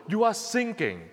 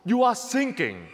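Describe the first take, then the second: No difference in how they are said.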